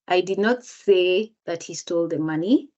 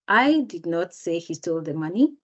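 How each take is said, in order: First: The word say is stressed. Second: The word I is stressed. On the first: It was conveyed another way, not said. "if the speaker emphasizes the word say" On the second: Someone else said it. "if the speaker emphasizes the word I"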